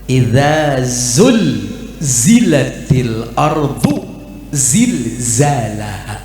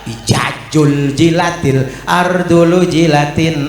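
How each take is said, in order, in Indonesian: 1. Bunyi z diucapkan dengan jelas sebagai z. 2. Bunyi z diganti dengan bunyi j. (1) "Bener tuh" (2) "salah nyebut huruf"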